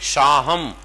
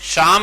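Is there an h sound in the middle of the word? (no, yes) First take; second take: yes; no. First: An h sound is heard in the middle. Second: No h sound is heard in the middle. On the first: This is how it is said there. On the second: This is how it is not said there.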